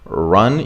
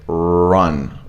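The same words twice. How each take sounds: First: The R sound is said plainly, without exaggeration. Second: The R sound is strongly exaggerated and drawn out. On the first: "instead of going just run" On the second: "you could go like run"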